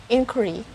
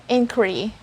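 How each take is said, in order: Both takes have the same delivery.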